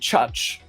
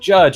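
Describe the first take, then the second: First: The first consonant is voiceless, with a German accent. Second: The first consonant is voiced, like plain English. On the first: "You devoice that" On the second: "instead of judge like judge"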